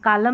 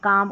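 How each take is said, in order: First: The word is said with an L sound. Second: The word is said without an L sound. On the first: The speaker calls it wrong. "कालम नहीं पढ़ेंगे" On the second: The speaker calls it right. "इसको भी काम करके पढ़ेंगे"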